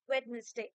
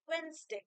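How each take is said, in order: First: The middle d is sounded, giving three syllables. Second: The middle d is dropped, giving two syllables. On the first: "pronunciation অনুযায়ী কিন্তু ওয়েডনেসডে" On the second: "ওয়েডনেসডে কে অনেকে ওয়েনসডে বলে"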